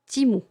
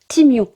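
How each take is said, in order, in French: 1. Le nom finit par un simple son 'oo'. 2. Le nom finit par un son 'yoo'. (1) "le U est un OU" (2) "Totalement faux"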